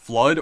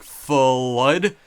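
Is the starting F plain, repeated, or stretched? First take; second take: plain; repeated. First: The word starts with one short F sound. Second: The F sound is said several separate times. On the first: "pronounced as just Flood" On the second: "pronounce all of the additional Fs as well"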